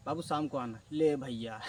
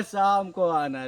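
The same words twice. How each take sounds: First: Mimicking the shopkeeper. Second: Slow, louder, drawn-out "शाम को आना"; mock sweet brush-off. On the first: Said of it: "तो क्या बोलता है". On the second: Shopkeeper sweetly putting off the cousin, slowly drawn out. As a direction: drag "शाम को आना" out like a sugary dodge. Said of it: "वो बोलता है".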